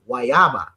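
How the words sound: It is said with an Arawak-influenced Dominican pronunciation. This is how it is said in the speaker's country. "we say it in the Arawak w- in the Arawak way"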